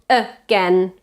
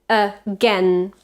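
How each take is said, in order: No difference in how they are said.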